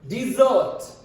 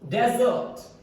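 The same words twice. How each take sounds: First: The stress is on the second syllable. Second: The stress is on the first syllable. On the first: It is the verb. "if it's a verb, its pronunciation will be changed. D, primary stress" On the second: It is the noun. "If it's a noun, its pronunciation will be"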